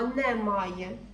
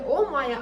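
First: The word begins with a 'ne' sound. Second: The word begins with an 'o' sound. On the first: The speaker calls it right. "а немає" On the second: The speaker calls it wrong. "Не о має"

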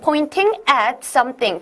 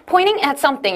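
First: Every sound is pronounced clearly and carefully. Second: It is said with a relaxed American accent. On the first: "정확하게 좀 얘기를 하시려면" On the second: "American accent는 pointing at something 이렇게 하시는 분들이 많으실 거예요"

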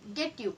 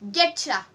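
First: The two words are said separately and fully. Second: The words blend into one reduced word.

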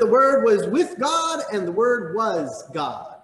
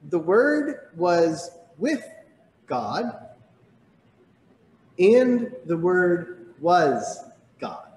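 First: It is read at normal speed. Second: It is read slowly.

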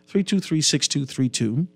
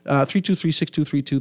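First: The number is read slowly. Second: The number is read quickly. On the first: The speaker calls it right. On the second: The speaker calls it wrong.

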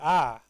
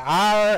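First: The letter is said in a New Zealand accent. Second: The letter is said with an exaggerated pirate-like R. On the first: Listeners get confused about what is meant. "if you've got a bit of a New Zealand accent... it can end up sounding a bit like this" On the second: The speaker is overcorrecting the pronunciation. "you can tend to overcompensate... you sound a bit like a pirate"

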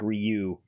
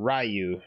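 First: The name is said as one syllable. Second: The name is said as two syllables. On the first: The speaker calls it right. "it's basically one syllable" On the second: The speaker calls it wrong. "not two syllables"

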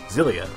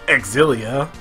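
First: The X is said as a soft z sound. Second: The X is said as a hard X sound. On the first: The speaker calls it right. "You would look at that word and think Zilia" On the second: The speaker calls it wrong. "why would you make it like a hard X sound?"

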